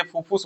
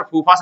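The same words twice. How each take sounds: First: "फूफूस" के अंत में उ की ध्वनि; "फूफूस" को "फुस" पर गिरते सुर में ख़त्म करें; सुधारा हुआ उच्चारण. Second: "फूफास" के अंत में अ की ध्वनि, उ नहीं; "फूफास" को "फस" पर ख़त्म करें; टोका गया उच्चारण. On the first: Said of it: "फूफूस बोलिए". ("फूफूस", दूसरा स्वर भी उ) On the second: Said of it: "फूफास नहीं बोलिए". ("फूफास", दूसरा स्वर अ जैसा) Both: Retold or imitated.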